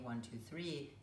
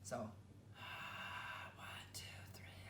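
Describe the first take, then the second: First: It is spoken in a normal voiced way. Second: It is spoken in a breathy whisper. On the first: "If you just simply talk" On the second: "only we turn it into a whisper"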